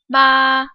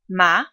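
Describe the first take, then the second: First: The pitch stays high and level. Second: The pitch rises upward. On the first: "The first tone is high-pitched and flat" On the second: "The second tone rises in pitch"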